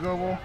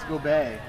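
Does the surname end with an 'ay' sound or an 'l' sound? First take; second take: l sound; ay sound. First: The surname ends with an 'l' sound. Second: The surname ends with an 'ay' sound. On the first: The speaker calls it wrong. "I've gotten it wrong all game" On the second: The speaker calls it right. "so it's Gobet"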